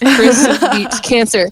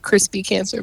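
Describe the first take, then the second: First: The title is said slowly, words kept apart. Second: The title is said fast, words run together. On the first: "but it's Chris Beats Cancer" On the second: "If I say it fast, it sounds like crispy cancer"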